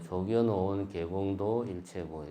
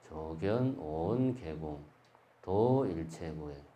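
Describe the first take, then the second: First: The pause falls after 도. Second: The pause falls before 도.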